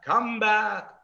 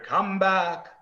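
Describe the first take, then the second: First: It is said more loudly than before. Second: It is said at a moderate volume.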